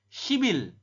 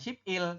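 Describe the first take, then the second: First: The final consonant links onto the next vowel. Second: The syllables are said apart, with a clipped p. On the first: The speaker calls it right. "tapi shibil" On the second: The speaker calls it wrong. "Ini dibaca bukan ship il"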